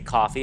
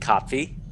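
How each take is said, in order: First: No T sound is heard in the middle. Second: A T sound is heard in the middle. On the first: "as I say coffee, I just drop the T" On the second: "this would be Kopfi"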